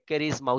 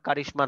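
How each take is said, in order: First: The middle consonant is a buzzing z sound. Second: The middle consonant is a hissing sh sound. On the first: The speaker calls it right. "উচ্চারণটা হবে ক্যারিজমা" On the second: The speaker calls it wrong. "এটার উচ্চারণ আবার কারিশমা না"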